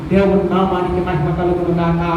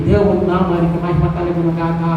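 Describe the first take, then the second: No difference in how they are said.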